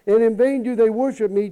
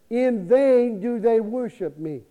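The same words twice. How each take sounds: First: Said in the usual way. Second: "In vain do they worship me" said slowly, weight on "vain"; slow emphasis on vain. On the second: Shown as a demonstration. Preacher repeating the verse to the congregation, slow stress on "vain". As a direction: lean on "vain", unhurried and deliberate.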